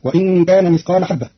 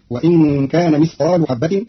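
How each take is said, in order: First: مثقال with fatha, mithqaala; standard reading. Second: مثقال with damma, mithqaalu; slow mithqaalu habbatin; Qalun reading. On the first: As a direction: mithqaala habbatin. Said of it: "برفع اللام". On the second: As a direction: end مثقال on u. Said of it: "فتصير". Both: Shown as a demonstration.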